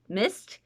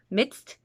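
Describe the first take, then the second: First: No d sound is heard before the s. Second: A d sound is heard before the s.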